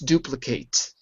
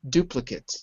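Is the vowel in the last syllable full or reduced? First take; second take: full; reduced. First: The last syllable has a full vowel. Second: The last syllable has a reduced vowel. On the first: It is used as a verb. "if you change it to a verb" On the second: It is used as a noun. "If it's a noun, ... the last syllable is unstressed when it's a noun"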